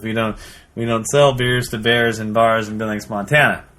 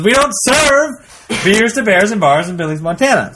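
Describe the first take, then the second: First: Said in the usual way. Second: Raised, drawn-out joke bartender's refusal; mock-stern bartender getting insistent; emphatic refusal. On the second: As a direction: lay down the rule, higher and slower. Bartender refuses again, more forcefully.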